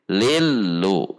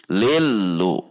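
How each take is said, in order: First: The doubled l is neither held nor abrupt. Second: The doubled l is neither held nor abrupt.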